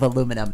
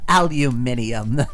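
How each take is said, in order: First: It is said the American way, four syllables. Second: It is said the British way, five syllables.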